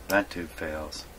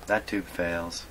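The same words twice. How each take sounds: The two takes are said the same way.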